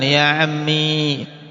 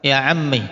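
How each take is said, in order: First: The word ends in a long i vowel. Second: The word ends in a short i vowel. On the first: "Ya-nya dimunculkan" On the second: "dengan mengkasrah akhirnya dan menghilangkan ya-nya"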